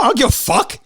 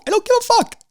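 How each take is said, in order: First: Defiant, higher and firm; heated. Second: Exasperated peak. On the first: Host ranting at listeners who complain, heated. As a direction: throw it back at the haters. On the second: Host ranting at listeners who complain, strained high outburst. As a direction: voice shoots far higher, strained. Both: Real, not acted.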